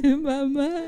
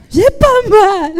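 First: Much softer, breathy repeat; soft take. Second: High, loud and slow; loud slow take. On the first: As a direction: say it again almost hushed. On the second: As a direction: belt it out slowly. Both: Acted.

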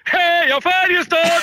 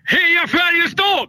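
First: Put-on high, slow Stockholm-accent shout. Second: Put-on cheering in a Stockholm accent, high and slow. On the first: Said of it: "lite högre". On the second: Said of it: "ropar heja Färjestad på stockholmska".

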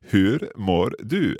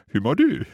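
First: Hur mår du slow with each R sounded; imitating the rolled R. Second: Who mår du with the R of hur dropped; imitating dropped R. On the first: Learner imitates the teacher's first take, R's sounded. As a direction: repeat Hur mår du slowly, R's pronounced. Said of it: "the first time you said". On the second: Learner mimics the teacher's quick take, R dropped. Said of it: "It sounded like".

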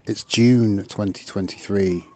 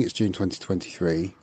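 First: Said in the usual way. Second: It's June twenty twenty-three, said softer and sheepish; sheepish repeat. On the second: Real, not acted. Caller repeats the date, laughing at herself, softer. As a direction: mumble the date again, embarrassed. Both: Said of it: "I don't know why I'm telling you".

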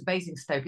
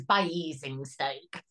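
First: Said in the usual way. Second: Basingstoke with a drawn-out, broadened first vowel, like "BAY-EEZ-ing-stoke"; Cheshire pronunciation. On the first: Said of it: "we always refer to Basingstoke as". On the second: Shown as a demonstration. Cheshire native showing the local name for Basingstoke, stretched first vowel. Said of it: "I'm from Cheshire and we always refer".

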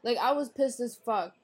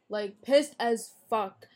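First: Said in the usual way. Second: "pissed as fuck" slow, each word hit hard; slow emphatic repeat. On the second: Real, not acted. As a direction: drag out "pissed as fuck" to drive it home.

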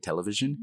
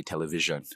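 First: "television" in a Canadian accent, higher rising lilt. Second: "television" in a Nigerian accent, direct and rounder. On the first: Showing interviewer how Canadians say "television", Canadian accent. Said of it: "that's the way Canadians would say it". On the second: Showing interviewer how Nigerians say "television", Nigerian accent. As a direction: say "television" the Nigerian way, falling at the end. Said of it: "in Nigeria, we say television". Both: Shown as a demonstration.

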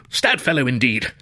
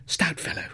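First: Full-voiced, warm toff thanks; student thanking the porter aloud; hearty thanks. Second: Breathy whispered thanks; student hushing his thanks to the porter. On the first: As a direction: say it out loud, gratefully. Voiced grateful repeat. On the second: Acted. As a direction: whisper it, hushed. Whispered grateful aside.

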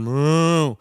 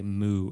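First: Long drawn-out cow moo; slow, lowing moo. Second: Said in the usual way. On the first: Retold or imitated. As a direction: imitate a cow, stretching the sound. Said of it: "and the cow went moo". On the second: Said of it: "that's what they say".

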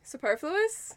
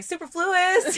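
First: "Superfluous" with stress on -per-, soo-PER-floo-us; "Superfluous" said soo-PER-flus; correct pronunciation. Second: "Superfluous" said as super-floo-us, high; "Superfluous" as super plus fluous; wrong pronunciation. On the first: Shown as a demonstration. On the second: Retold or imitated. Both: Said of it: "is that how you say it".

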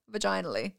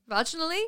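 First: "Vaginally" as va-JINE-ally, falling; settled pronunciation. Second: "Vaginally" as VAJ-in-ally, higher, rising; questioned pronunciation. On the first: Settling on the word, "Vaginally" stressed on JINE. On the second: Doubting the word, "Vaginally" front-stressed as a question. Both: Shown as a demonstration.

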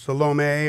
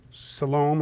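First: Salome said as sa-LO-may, three syllables; Salome ending in a may sound; second pronunciation. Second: Salome said as suh-LOHM, two syllables; Salome with stress on LOHM, no final vowel; first pronunciation. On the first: Correcting himself on the name, Salome as sa-LO-may. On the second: Reading the women's names, tries Salome as suh-LOHM. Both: Shown as a demonstration. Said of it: "I don't know how to say it".

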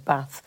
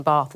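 First: BATH with a short flat 'a'; northern short A. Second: BATH with a long 'ah' vowel; southern long A. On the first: Daughter quoting her own home word, short-A Bath. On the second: Daughter showing mum her new vowel, long-A Bath. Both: Shown as a demonstration. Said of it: "saying Bath instead of Bath".

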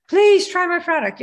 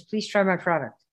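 First: High, loud, pleading beggar; hammed-up begging plea. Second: Said in the usual way. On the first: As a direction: plead like a desperate newbie seller. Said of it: "feel like you're begging". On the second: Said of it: "he says".

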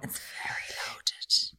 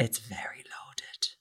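First: Slower, breathier whisper; drawn-out whispered aside. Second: Hushed, slow whisper; whispered aside. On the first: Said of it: "whispered again". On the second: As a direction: drop to a slow conspiratorial whisper. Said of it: "whispered comment". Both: Real, not acted.

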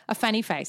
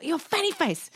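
First: Said in the usual way. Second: High mock-cross kid voice; pitched-up childish taunt; child's insult. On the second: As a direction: imitate a small boy name-calling.

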